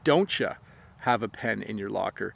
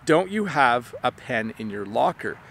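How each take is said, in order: First: The word "you" is reduced to "ya". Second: The word "you" is said in full.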